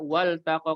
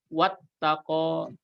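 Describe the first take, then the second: First: The L is pronounced clearly before the T. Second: The L merges into a doubled T sound. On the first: The L belongs to a verb, so it is kept. The speaker calls it right. "tapi di sini dibaca wal taqa" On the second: The general rule for the definite article is applied. The speaker calls it wrong. "harusnya kan kalau ikut kaidah yang tadi wat taqa"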